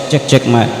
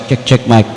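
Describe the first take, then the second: No difference in how they are said.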